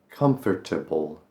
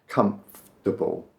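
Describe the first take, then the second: First: Every syllable is pronounced carefully. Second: The middle runs together into fewer syllables. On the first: The speaker calls it wrong. "That's overpronouncing it a bit" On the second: The speaker calls it right. "Just make it more comfortable"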